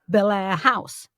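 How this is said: The stress falls on the second word. This is the American way of saying it. "They put the stress on the second"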